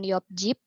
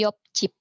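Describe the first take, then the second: First: The second word starts with a plain consonant. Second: The second word starts with a tense consonant. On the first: The speaker calls it wrong. "bukan yop jip" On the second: The speaker calls it right. "jiotnya berubah menjadi sang jiot"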